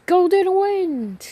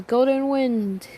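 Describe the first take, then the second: First: High, slow shout of the name; stand call shout. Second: Said in the usual way. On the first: Acted. Giorno gets up and summons his stand, shouting slow and high. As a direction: call the stand out full force.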